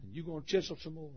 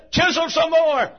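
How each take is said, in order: First: Much softer, quick, inward; hushed plea. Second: Shouted plea. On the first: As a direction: say it quietly, almost to yourself. Same plea, now hushed. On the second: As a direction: shout it out, high and slow. Jacob begging God to keep going. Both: Acted.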